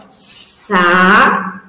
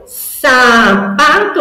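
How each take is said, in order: First: Sa-pa-to split into slow separate syllables; slow segmented sapato; syllables split apart. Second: Sapato said louder and a touch higher as the joined answer; teacher revealing sapato; triumphant reveal. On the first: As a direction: build sapato piece by piece. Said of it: "o sa no começo dessa palavra". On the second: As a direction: announce the new word to a child with delight. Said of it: "Que palavra que vai virar". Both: Shown as a demonstration.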